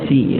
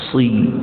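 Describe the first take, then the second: First: The s sound is thin and light. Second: The s sound is thick and heavy. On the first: The speaker calls it wrong. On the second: The speaker calls it right. "ketebalan dia itu tetap kuat"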